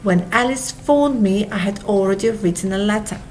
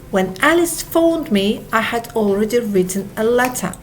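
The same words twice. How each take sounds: The two takes are said the same way.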